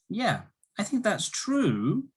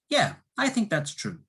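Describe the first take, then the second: First: The voice rises at the end, doubting. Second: The voice falls at the end, agreeing.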